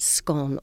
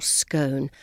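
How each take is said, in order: First: Scone with a short o, rhyming with gone; short-o pronunciation. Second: Scone with a long o, rhyming with bone; long-o pronunciation. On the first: Guide showing one side of the great debate, scone rhyming with gone. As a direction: say scone as "skon". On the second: Guide showing the other side of the debate, scone rhyming with bone. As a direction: say scone as "skone". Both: Shown as a demonstration. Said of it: "whether you pronounce it".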